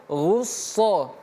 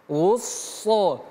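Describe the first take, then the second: Both takes have the same delivery.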